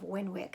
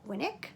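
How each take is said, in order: First: The middle w sound is clearly pronounced. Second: The middle w sound is left out. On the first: This is the local American way of saying it. The speaker calls it wrong. "so maybe that's just how we pronounce it here" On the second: This is how it is said in the UK. The speaker calls it right. "in the U K, it is pronounced Winnick"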